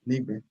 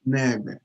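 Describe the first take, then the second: First: The first vowel sounds like 'ee'. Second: The first vowel sounds like 'eh'. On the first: The speaker calls it wrong. "It's not Nigbe. The wrong way of saying" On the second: The speaker calls it right. "the right way of saying is Negbe"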